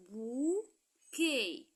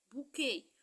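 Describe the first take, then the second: First: BOUQUET drawn out as bou ... quet; slow "bouquet" with a clear pause before quet; bouquet split into syllables. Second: Said in the usual way. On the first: Shown as a demonstration. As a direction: stretch each beat of "bouquet". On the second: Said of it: "deux syllabes".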